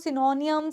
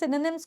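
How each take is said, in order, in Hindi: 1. शब्द एक लंबी खिंची हुई 'nyums' आवाज़ पर खत्म होता है। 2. शब्द एक छोटी 'nims' आवाज़ पर खत्म होता है।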